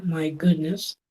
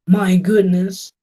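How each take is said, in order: First: Said in the usual way. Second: Drawn-out my goodness, a touch of mock shock; slow mock surprise. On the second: Shown as a demonstration. Teacher showing the class a mock-surprised my goodness. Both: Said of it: "En inglés tenemos".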